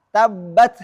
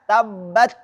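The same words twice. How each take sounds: The two takes are said the same way.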